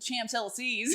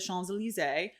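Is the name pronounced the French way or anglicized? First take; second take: anglicized; French. First: The name has an English-sounding pronunciation. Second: The name has a French-sounding pronunciation. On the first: The speaker calls it wrong. "he's all like" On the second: The speaker calls it right. "I say it correctly"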